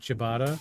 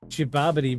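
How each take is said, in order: First: The word is pronounced the usual way. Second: The word is pronounced in a distorted way. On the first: The speaker calls it right. "you know he's talking about ciabatta" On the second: The speaker calls it wrong. "intentionally mispronounce something"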